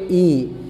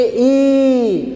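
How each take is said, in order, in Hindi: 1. स्वर हल्का और धीरे से बोला जाता है। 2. स्वर ज़ोर से और दम लगाकर बोला जाता है। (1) "हल्का आवाज से बोलेंगे" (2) "जोर से बोलेंगे ई, तनी दम लगा के, प्रेशर के साथ"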